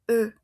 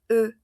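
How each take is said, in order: First: The vowel is said with lips rounded like u. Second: The vowel is said with lips rounded like u.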